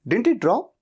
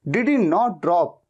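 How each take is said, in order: First: Not is contracted onto did before he. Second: Not is a separate full word after he. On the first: "क्या कहते हैं?" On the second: "इतना लंबा कहने के"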